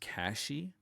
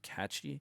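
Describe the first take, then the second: First: The middle consonant is an 'sh' sound. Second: The middle consonant is a 'ch' sound. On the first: The speaker calls it right. "but I guess it's Cashy O S" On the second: The speaker calls it wrong. "I always want to pronounce it Catchy"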